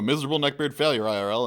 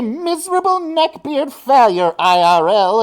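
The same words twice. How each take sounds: First: It is read in an ordinary speaking voice. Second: It is read in a put-on cartoon villain voice.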